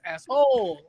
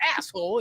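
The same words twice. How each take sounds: First: The stress is on the second syllable. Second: The stress is on the first syllable.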